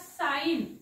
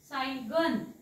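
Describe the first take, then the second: First: The word is said without a g sound. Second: The word is said with a g sound. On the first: The speaker calls it right. "जी हा silent असतो" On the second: The speaker calls it wrong. "आता ह्याला असं वाचायचं नाहीये"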